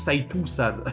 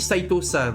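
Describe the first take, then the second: First: The name ends in an 'o' gliding into 'u'. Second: The name ends in a plain, single 'o' sound. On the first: The speaker calls it wrong. "il m'a pas dit Saitou-san" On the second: The speaker calls it right. "il m'a bien dit Saito-san"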